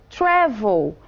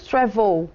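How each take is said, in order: First: "travel" as TRA-vel, second syllable weak; stress on first syllable. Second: "travel" with the stress moved onto the second syllable; wrong final stress. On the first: Teacher showing what we do say, "travel" stressed on its first syllable. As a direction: punch the opening syllable of "travel". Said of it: "Então, essa é a sílaba marcada". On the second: Teacher showing what we don't say, "travel" stressed on its last syllable. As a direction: lean on the end of "travel", as tra-VEL. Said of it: "Nós não falamos travel". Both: Shown as a demonstration.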